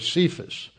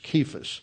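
First: The name begins with a soft S sound. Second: The name begins with a hard K sound. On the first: The speaker calls it wrong. "There's no C that is pronounced like an S in Greek" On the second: The speaker calls it right. "there's a hard K there in Greek. It's Cephas"

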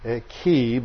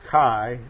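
First: The vowel is not a long I sound. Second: The vowel is a long I, like 'eye'. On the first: This is the way it is taught today. "as we're taught to pronounce it" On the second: This is the older way of saying it. "older ways of pronouncing it was with a long I"

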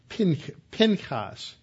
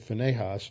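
First: The name is said with its Hebrew sounds. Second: The name is said with anglicized English sounds. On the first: "Pinchas in the Hebrew" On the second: "We've anglicized it to Phinehas"

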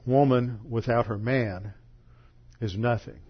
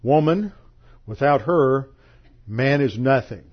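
First: It pauses after 'man', grouping 'woman is nothing'. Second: It pauses after 'her', grouping 'man is nothing'.

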